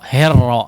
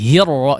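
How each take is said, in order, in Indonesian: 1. Vokal pertama adalah 'eh' yang lebih gelap dan berat. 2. Vokal pertama adalah 'ee' yang jelas dan tipis. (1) "jangan herro" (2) "hi betul-betul menjadi kasroh"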